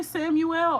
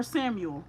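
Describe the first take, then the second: First: "Samuel" with the last syllable drawn out clearly; full pronunciation. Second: "Samuel" with a short, reduced ending; reduced pronunciation. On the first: Reader checking which name she said, "Samuel" pronounced in full. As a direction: say "Samuel" as three full syllables, Sam-you-el. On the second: Reader offering the other version, "Samuel" with reduced ending. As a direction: say "Samuel" run together, like Sam-yul. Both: Shown as a demonstration. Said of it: "did I say Samuel or Samuel".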